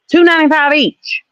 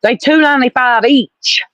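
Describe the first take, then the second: First: "Two" hit much higher, exasperated; high, indignant "Two ninety-five each"; stress on two. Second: Said in the usual way. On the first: Shown as a demonstration.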